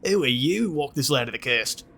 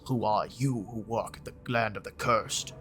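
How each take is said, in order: First: It is said in a put-on Australian accent. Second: It is said in the speaker's plain accent.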